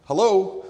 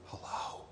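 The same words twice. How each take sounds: First: Louder and higher, calling down the line; louder hello. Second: Put-on a small child's soft whisper. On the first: Acted. Telemarketer calling louder to the whispering child. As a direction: call out to be heard on the phone. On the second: A narrator's reading. Small child whispering hello into the phone. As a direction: breathe it into the phone. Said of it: "a small voice whispered".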